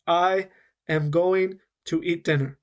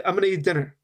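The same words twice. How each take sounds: First: Careful unlinked. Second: Quick, the words run together as "I'm gonna eat dinner"; native linked rhythm. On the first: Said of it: "It's very slow, and I'm saying every sound". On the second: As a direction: blend "I'm gonna" into one smooth natural flow. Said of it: "spoke it more in a native rhythm". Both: Shown as a demonstration.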